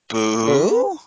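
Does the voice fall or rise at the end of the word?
rises. The voice rises at the end. It sounds like a hesitant question.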